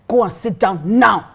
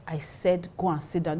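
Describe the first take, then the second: First: Slow, emphatic command; retold stern order. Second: Softer, understated command; retold quiet order. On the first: Pastor ordering the drunk guy to sit, imitated stern command. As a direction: order it slowly, landing hard on "now.". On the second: Pastor ordering the drunk guy away, retold quiet command.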